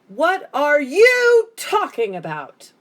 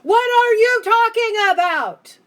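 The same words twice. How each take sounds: First: Only the word you is shouted. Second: Every word is shouted equally.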